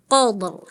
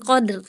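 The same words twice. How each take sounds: First: QADR with a heavy, rounded r; thick ro. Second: QADR ending in a light, thin r. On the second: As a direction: show the mistaken light r in QADR. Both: Shown as a demonstration.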